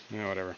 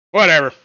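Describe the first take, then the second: First: Said in the usual way. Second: Loud, high exasperated whatever. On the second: Real, not acted. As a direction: blurt it out, fed up.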